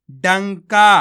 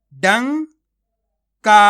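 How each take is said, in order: First: Said in the usual way. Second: डंका slow and louder, falling; teacher modelling डंका; slow loud reading. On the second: Shown as a demonstration. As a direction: sound out डंका slowly and firmly. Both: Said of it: "आपको मेरा तरीका देखना है".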